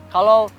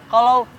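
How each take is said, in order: The two takes are said the same way.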